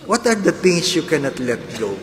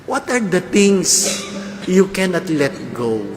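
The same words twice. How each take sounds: First: Said in the usual way. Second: "are" leaned on, slowed; slow emphatic question. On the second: Shown as a demonstration. Preacher posing the question to the congregation, slow and emphatic. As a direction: draw out "What are the things" slowly.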